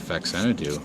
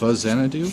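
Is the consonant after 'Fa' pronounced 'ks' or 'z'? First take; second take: ks; z. First: The consonant after 'Fa' is a ks sound. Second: The consonant after 'Fa' is a z sound. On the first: This is the speaker's old habitual way of saying it. The speaker calls it wrong. "I used to say Faxanadu" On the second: This is the way it is supposed to be said. The speaker calls it right. "it's Fazanadu"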